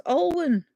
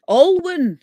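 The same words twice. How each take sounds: First: Alwyn said higher as AWL-wun, falling; sounding it out. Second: Alwyn said high and loud as AWL-wun; a bright, loud AWL-wun for Alwyn; sounding it out. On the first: Repeating a viewer's name, Alwyn said higher. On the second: Reading a viewer's name aloud, Alwyn said high and loud. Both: Shown as a demonstration. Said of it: "can you pronounce it".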